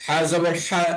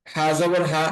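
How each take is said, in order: First: হা from a constricted throat, the long Arabic ha; throat-squeezed h. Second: Said in the usual way. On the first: Shown as a demonstration. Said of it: "গলা চেপে আদায় হয়". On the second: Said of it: "সাধারণভাবে আদায় হয়".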